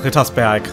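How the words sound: The name is said with a German pronunciation. The speaker calls it right. "sondern Rittersberg"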